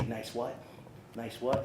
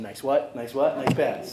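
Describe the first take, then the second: First: Quoting the coach in his own everyday voice, no shouting; coach's call retold plain. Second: Louder mock coach call, each "what" rising; coach's call, louder. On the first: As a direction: recall the coach's "Nice what?" as a gentle reminder. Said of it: "you would always say". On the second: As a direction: bark "Nice what?" at the team like the old coach. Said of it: "making sure they're saying".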